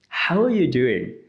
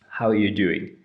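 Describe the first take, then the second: First: The tone is warm and enthusiastic. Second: The tone is flat and neutral. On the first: "I'm enthusiastic about finding out what's going on, and I'm showing that I'm friendly" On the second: "This is very neutral"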